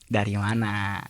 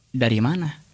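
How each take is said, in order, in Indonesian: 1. Terdengar seperti sudah tahu, seolah sudah menyadarinya. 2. Terdengar ragu dan curiga. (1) "kalau orang yang sudah tahu nih kejadiannya kayak apa" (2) "kalau intonasinya orang eh, curiga"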